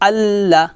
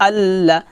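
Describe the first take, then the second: The two takes are said the same way.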